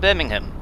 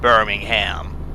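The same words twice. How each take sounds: First: It is said with a British pronunciation. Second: It is said with an American pronunciation.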